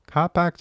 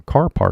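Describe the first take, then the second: First: "Car park" with both r's dropped; r-less pronunciation. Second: "Car park" with both r's sounded; r-ful pronunciation. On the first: Learner citing the familiar form, r-less "Car park". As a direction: say "Car park" Australian-style, long vowels without r. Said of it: "Car parkじゃないじゃん". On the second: Learner quoting what was heard, r-ful "Car park". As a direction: say "Car park" American-style, curling each r. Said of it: "Car parkって言ったじゃん". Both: Shown as a demonstration.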